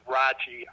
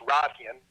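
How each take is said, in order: First: The name is said with an anglicized pronunciation. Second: The name is said with a German pronunciation. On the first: This is how most people say it. "everybody says Rachi" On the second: This is how a German speaker would say it. "that's the German speaker in me"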